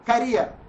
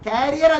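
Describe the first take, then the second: First: The first vowel is short. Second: The first vowel is long. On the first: The speaker calls it right. "കരിയർ എന്നാണ് അതിന്റെ spelling" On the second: The speaker calls it wrong. "കാരിയർ അല്ല കേട്ടോ"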